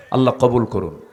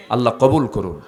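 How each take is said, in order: Both takes have the same delivery.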